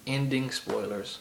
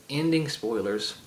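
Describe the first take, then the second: No difference in how they are said.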